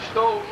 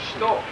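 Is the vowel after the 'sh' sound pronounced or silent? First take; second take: silent; silent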